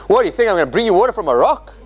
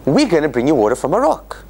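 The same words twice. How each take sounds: First: Fast, mocking taunt; mock taunt, rattled off fast. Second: Plain, assured statement; calmly assured; confident promise. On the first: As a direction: sneer the question at them. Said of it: "how do you wanna say?". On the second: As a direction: say it as a sure promise. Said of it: "what it should be saying is". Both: Shown as a demonstration.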